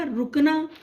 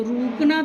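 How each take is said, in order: First: रुकना with a short clipped उ, ru-kna; correct short u. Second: रूकना with a long held ऊ, roo-kna; wrong long u. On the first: Teacher telling pupils the right pronunciation, short उ. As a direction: say रुकना with a brief first vowel. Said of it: "क्या उच्चारण होता है इस शब्द का". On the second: Teacher marking the wrong word for pupils, long ऊ. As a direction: draw out the first vowel of रूकना, the mistaken way. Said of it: "तो रूकना तो होता नहीं है". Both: Shown as a demonstration.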